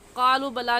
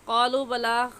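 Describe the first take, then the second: First: The vowel in qalu is cut short. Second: The vowel in qalu is drawn out long. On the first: The speaker calls it wrong. "क़ालू बला नहीं कहेंगे" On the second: The speaker calls it right. "एक अलिफ के बराबर खींचेंगे"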